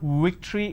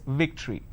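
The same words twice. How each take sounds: First: It begins with a w sound, lips rounded. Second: It begins with a v sound, lip bitten. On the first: The speaker calls it wrong. "it's not victory" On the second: The speaker calls it right. "it's victory"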